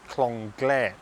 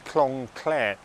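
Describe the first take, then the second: First: The second word starts with a g sound. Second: The second word starts with a k sound. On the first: "some of you might pronounce it as the Clong Glare" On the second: "this is the Clong Clare"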